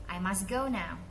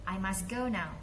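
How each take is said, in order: Both takes have the same delivery.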